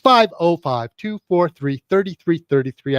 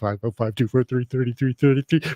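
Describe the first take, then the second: First: The number is read slowly and deliberately. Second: The number is read quickly without slowing. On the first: "Yes, I can slow down" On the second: "I can't slow down"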